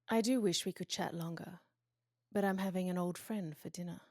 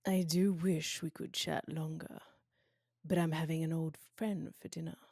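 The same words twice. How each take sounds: First: It is said in her normal voice. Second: It is said in a put-on Hannibal voice.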